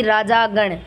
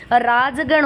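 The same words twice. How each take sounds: First: राजागण with long aa after the j; wrong form. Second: राजगण with no vowel after the j; correct form. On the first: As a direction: say राजागण slowly as raa-jaa-gan. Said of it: "ना कि". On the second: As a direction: say राजगण as raaj-gan. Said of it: "ना कि राजागण". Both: Shown as a demonstration.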